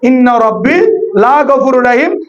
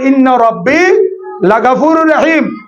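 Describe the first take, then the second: First: The vowel of 'la' is drawn out long. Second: The vowel of 'la' is kept short. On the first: The Lord is not forgiving. The speaker calls it wrong. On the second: The Lord is surely forgiving. The speaker calls it right.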